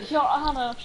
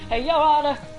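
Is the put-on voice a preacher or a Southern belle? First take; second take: Southern belle; preacher. First: It is said as a haughty Southern belle. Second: It is said in a put-on preacher voice. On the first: "like a haughty Southern belle" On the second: "Now I switched into preacher voice"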